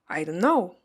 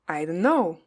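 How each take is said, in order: First: The t in 'don't' is dropped. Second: The t in 'don't' is dropped.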